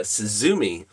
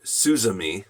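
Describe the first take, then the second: First: "Suzumi" as suh-ZOO-mee; "Suzumi" with a short first vowel and long stressed middle; stress on second syllable. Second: "Suzumi" as SOO-zuh-mee; "Suzumi" with a long first vowel and weak middle; stress on first syllable. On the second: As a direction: say "Suzumi" with the weight up front, SOO. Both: Shown as a demonstration. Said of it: "however they wanna say it".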